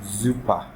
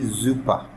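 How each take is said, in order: First: The word begins with a buzzing Z sound. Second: The same.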